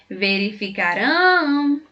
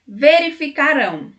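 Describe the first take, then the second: First: "Verificarão" slowly, with RÃO held long; calling out RÃO. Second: Said in the usual way. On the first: Shown as a demonstration. Teacher showing how to find the tonic syllable, final RÃO drawn out in "Verificarão". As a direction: call the word "Verificarão", stretching the final RÃO. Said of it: "estratégia de cantar ou chamar a palavra". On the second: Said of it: "A sílaba tônica é rão".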